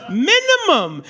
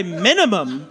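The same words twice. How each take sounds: First: "Minimum" repeated with weight on the first syllable; stressed repeat. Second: Said in the usual way. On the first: Shown as a demonstration. To the crowd, insisting with a stressed repeat.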